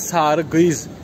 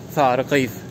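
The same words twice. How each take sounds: First: The s is a plain hissing sound. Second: The s is lisped between the teeth. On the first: "Diş arası söylemeye gerek yok" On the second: "esas söylenmesi gereken"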